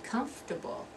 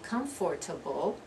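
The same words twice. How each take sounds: First: The word is said with three syllables. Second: The word is said with four full syllables. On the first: The speaker calls it right. "You're going to drop that, that second syllable" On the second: The speaker calls it wrong. "That's four syllables"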